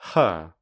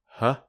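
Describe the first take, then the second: First: The vowel is full and clearly pronounced. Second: The vowel is reduced to a weak schwa. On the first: "I'll firstly say the strong form" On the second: "then the weak form"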